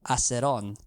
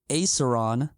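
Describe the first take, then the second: First: The R is rolled and the A is soft. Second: The R is plain and the A is hard. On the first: This is how it is said in the family's own language. "it's a softer A, ... And you get that R roll" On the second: This is how it is said in American English. "in American English"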